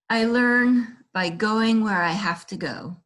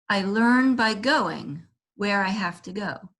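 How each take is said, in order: First: The stress falls on have to. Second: The stress falls on going.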